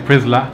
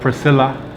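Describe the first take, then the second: First: The middle syllable is dropped, leaving two syllables. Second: All three syllables of the name are pronounced. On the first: This is how people in Ghana say the name. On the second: This is the usual English form of the name.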